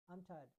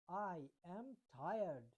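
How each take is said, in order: First: Said in the usual way. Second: "I am tired" drawn out slowly with weight on I; emphasised. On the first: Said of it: "अगर मैं कहता हूँ जैसे कि मैं थका हुआ". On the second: Shown as a demonstration. Teacher demonstrating emphatic tiredness to students. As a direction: press every word, slowly. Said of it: "इसमें थोड़ा जोर लगता है".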